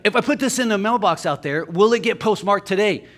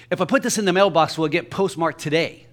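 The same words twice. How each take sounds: First: Louder, higher imitation of a pushy customer; repeating himself insistently. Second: Quick, slightly raised imitation of a customer; interrupting customer. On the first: Customer repeating his question to the postal clerk, loudly insistent imitation. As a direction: say it up and out for someone who missed it. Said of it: "Pardon me? He's like". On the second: Man butting in at the post office counter, mock interrupting customer. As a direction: cut in briskly with the question.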